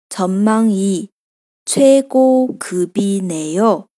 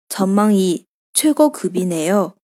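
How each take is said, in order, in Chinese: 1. 这句话是慢速说的。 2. 这句话是正常语速说的。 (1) "我们慢一点再来读一下" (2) "接下来正常语速。"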